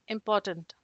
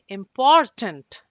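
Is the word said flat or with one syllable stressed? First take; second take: flat; stressed. First: All syllables are said flat, with no stress. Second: The syllable 'por' is stressed on a high note. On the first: "it's blank" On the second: "I'm kind of emphasizing on a high note here"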